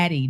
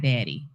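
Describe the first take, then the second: First: Zaddy, with a clear buzzing Z at the start. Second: Daddy, starting on a plain D sound. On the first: Correcting a friend who misheard, zaddy stressed. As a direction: lean on the Z sound of zaddy. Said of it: "It's a Z, with a Z". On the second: Correcting a friend, daddy said as the wrong word. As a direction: set daddy apart from zaddy. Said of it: "I said zaddy, not daddy". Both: Shown as a demonstration.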